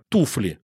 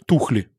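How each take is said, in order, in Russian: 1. Средний согласный — звук f. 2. Средний согласный — звук kh.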